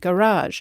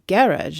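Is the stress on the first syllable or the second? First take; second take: second; first. First: The stress is on the second syllable. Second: The stress is on the first syllable. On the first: It keeps the foreign word's stress. "We let the foreign stress stay on newer borrowings like" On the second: It uses the English stress pattern. "In Britain, they say"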